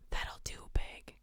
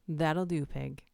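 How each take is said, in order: First: Hushed creepy whisper. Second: Said in the usual way. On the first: Pretend. Streamer reading a creepy chat line, whispered. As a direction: whisper it like a secret. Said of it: "A S M R for the horrible". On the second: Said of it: "What is that from?".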